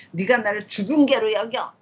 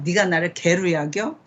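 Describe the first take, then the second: First: Higher-pitched, mildly indignant question; escalated mock indignation. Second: Said in the usual way. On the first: Shown as a demonstration. Teacher acting Abner protesting the worst insult, mock indignant. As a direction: top step of an acted, mounting complaint. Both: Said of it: "이러면 나를 점점".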